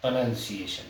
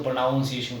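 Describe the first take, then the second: First: प्रोनाउंसिएशन said pro-NUN-see-ay-shun, with "nun" and not "noun"; the right way, प्रोनाउंसिएशन with a short "nun"; प्रोनाउंसिएशन said carefully as pro-nun-see-ay-shun; correct pronunciation. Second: प्रोनाउंसिएशन said pro-NOUN-see-ay-shun, with the "noun" of pronounce; the common mistake, प्रोनाउंसिएशन with "aun"; प्रोनाउंसिएशन with the "noun" of pronounce, as many wrongly say; wrong pronunciation. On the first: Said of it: "Basically ये होता है". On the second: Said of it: "जो कि गलत है". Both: Shown as a demonstration.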